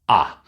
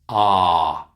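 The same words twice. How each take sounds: First: The vowel is cut short. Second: The vowel is held long. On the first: The speaker calls it right. "It's short" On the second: The speaker calls it wrong. "no, that's too long"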